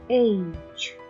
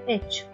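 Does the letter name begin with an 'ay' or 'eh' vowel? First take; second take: ay; eh. First: The letter begins with an 'ay' vowel. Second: The letter begins with an 'eh' vowel. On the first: The speaker calls it right. "اچ نه بچه ها ایچ" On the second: The speaker calls it wrong. "یا میگن اچ"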